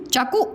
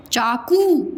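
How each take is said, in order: First: चाकू with the final u cut short; चाकू said quickly with a short last vowel; wrong short vowel. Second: चाकू with the final oo held; चाकू with a long closing vowel. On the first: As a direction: clip चाकू to "chaa-ku". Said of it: "चाकू नहीं बोलते हो". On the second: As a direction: stretch the end of चाकू, "chaa-kooo". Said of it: "बड़ा ओ लग जाएगा इसमें". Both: Shown as a demonstration.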